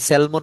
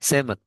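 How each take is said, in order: First: The L sound is pronounced in the word. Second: The L sound is left out of the word. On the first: The speaker calls it wrong. "এটা স্যালমন না" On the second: The speaker calls it right. "এল এর উচ্চারণ কিন্তু হয় না"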